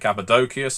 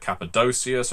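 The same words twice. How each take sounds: First: The C before the ending sounds like k. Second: The C before the ending sounds like s. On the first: "I keep saying Cappadocius ... there's no soft C" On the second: "instead of Cappadocius"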